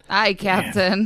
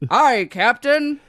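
First: It is said in a plain reading voice. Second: It is said in a put-on sailor voice.

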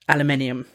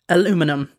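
First: The word ends with the extra syllable '-inium'. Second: The word ends with the shorter '-inum' syllable. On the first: The speaker calls it right. "it is pronounced aluminium" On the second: The speaker calls it wrong. "It is not pronounced aluminum"

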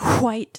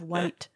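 First: It starts with a breathy hw sound. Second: It starts with a plain w sound.

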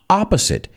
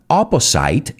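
First: The last syllable sounds like 'sit'. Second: The last syllable sounds like 'site'. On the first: The speaker calls it right. "it's opposite" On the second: The speaker calls it wrong. "It's not opposite"

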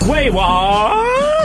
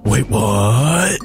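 First: It is said in a normal voice. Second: It is said in a gravelly Batman voice.

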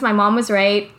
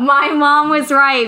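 First: It is said at normal, soft volume. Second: It is said loudly.

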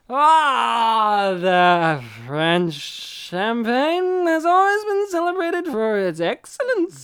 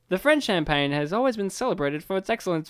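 First: The words are slurred like a drunk person. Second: The words are spoken clearly and normally. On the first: The person saying it is drunk. "but it's just like him just like" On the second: This is how the line was meant to sound. "he's just trying to say"

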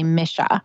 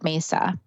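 First: The middle consonant is a 'sh' sound. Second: The middle consonant is an 's' sound. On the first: This is the native pronunciation. "the pronunciation is actually misha" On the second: This is the Western pronunciation. "the Western people, we call it mesa"

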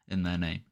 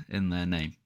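No difference in how they are said.

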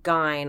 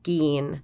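First: The name does not rhyme with fiend. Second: The name rhymes with the word fiend. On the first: The speaker calls it wrong. "and not Gein" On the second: The speaker calls it right. "It's pronounced Gein"

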